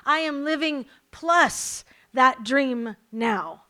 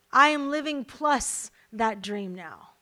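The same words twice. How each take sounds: First: Slow and louder, stress on plus; preacher repeating for emphasis, slower and louder; slow emphatic repeat. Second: Said in the usual way. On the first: Shown as a demonstration. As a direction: lean hard into plus, drawn out. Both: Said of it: "Let me say it again".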